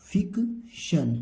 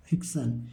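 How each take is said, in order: First: फिक्शन very slowly, fik then shun; drawn-out teaching model of फिक्शन; syllable-by-syllable reading. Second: Said in the usual way. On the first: Shown as a demonstration. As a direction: break फिक्शन in two, high then falling. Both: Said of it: "इसको क्या पढ़ेंगे?".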